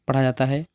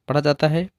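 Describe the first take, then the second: The two takes are said the same way.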